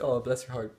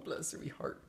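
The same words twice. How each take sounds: First: Said in the usual way. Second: Cutesy guess. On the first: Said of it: "It's like". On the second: Retold or imitated. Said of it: "It's like, "Oh".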